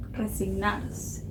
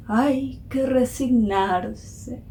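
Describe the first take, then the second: First: Very soft, slow near-whisper; hushed musing. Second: A hint of an old woman, very drawn out; lightly voiced old woman. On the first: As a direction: murmur the word slowly to yourself. Narrator muses on the quoted word. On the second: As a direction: draw it out slowly like a resigned old lady, lightly. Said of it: "dice una viejita". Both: A narrator's reading.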